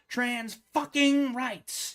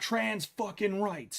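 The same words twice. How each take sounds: First: The final -ing is clearly and fully enunciated. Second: The final -ing is clipped to a short 'in'. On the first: "enunciate the ing" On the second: "it's not"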